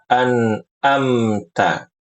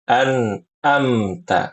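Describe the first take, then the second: The two takes are said the same way.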